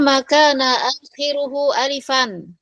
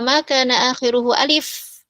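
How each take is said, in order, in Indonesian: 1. Kata terakhir berakhir dengan bunyi '-an'. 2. Kata terakhir berakhir tanpa bunyi '-an'. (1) "ya dibaca alifan" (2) "menghafalnya cuma wa ma kana akhiruhu alif"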